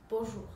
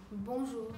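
First: Bonjour with a nasal on, no final r; correct bonjour. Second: Bonjour said as bon-zhoo, nasal vowel; nasal French Bonjour, r dropped; correct bonjour. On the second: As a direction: model Bonjour cleanly for the learner. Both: Shown as a demonstration. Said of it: "Attention à la prononciation".

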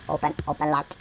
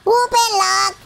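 First: Low, soft, to yourself; low murmur. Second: High-pitched, insistent order; high command. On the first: Real, not acted. Player fiddling with a lock, low soft murmur. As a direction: say it low and small. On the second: Pretend. Player ordering the lock to open, high command.

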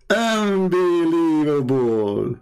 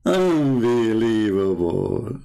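First: Drawn-out disbelief. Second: Mock disbelief. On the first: Repeated, slower. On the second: Mocking disbelief, drawn out. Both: Real, not acted.

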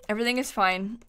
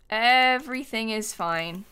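First: Said in the usual way. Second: Drawn-out "Everything is fine"; slow, stretched out. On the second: Real, not acted. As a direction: stretch "Everything" slowly, as if calming yourself. Repeats it to calm self.

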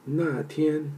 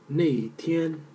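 First: 那 said as "na", with an open "ah"; 那天 with an "ah" vowel in 那; "na" pronunciation. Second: 那 said as "nei", rhyming with "day"; 那天 with an "ei" vowel in 那; "nei" pronunciation. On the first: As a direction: pronounce 那天 as "na tian". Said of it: "also. Pronunciation". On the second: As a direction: pronounce 那天 as "nei tian". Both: Shown as a demonstration.

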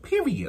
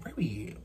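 First: "Period." squeaked high with a falling finish; high sassy period. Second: "Period." dropped low and nearly whispered; low soft period. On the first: Ending the point to viewers, high sassy "Period.". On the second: Ending the point to viewers, low soft "Period.". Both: Real, not acted. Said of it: "said twice, differently".

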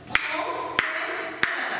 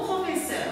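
First: "professeur" very slowly, in three separated syllables: pro-fe-sseur. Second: Said in the usual way. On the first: Shown as a demonstration. Teacher segmenting "professeur" for the class, slow syllable-by-syllable delivery. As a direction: break "professeur" into pro, fe, sseur, stretching each. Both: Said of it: "bien segmentez le mot professeur".

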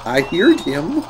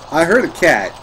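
First: "heard him" lifted like a question; questioning rise. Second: "heard" peaks, then "a cat" falls; falling statement. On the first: Searching for the cat, questioning rise on "heard him". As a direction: say "I heard him" with a rising, unsure tune. Unsure, then restates what was heard. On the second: Searching for the cat, firm fall on "a cat". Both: Real, not acted.

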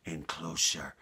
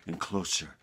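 No difference in how they are said.

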